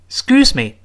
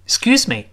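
The two takes are said the same way.

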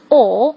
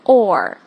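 First: It is said without an r sound. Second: It is said with an r sound. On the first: The speaker calls it right. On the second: The speaker calls it wrong.

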